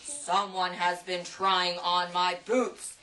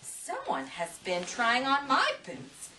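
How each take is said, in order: First: It is boomed in a big, deep bear voice. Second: It is huffed in Mama Bear's voice.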